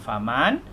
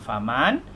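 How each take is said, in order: First: The n sound is kept before lam. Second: The same.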